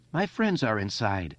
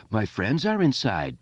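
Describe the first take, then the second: First: Said in the usual way. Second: Squealed mimicry of the boy; exaggerated mock whine. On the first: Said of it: "Eddie said". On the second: A narrator's reading. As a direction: parrot him in a jeering squeal. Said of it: "Patrick Hochstetter squealed".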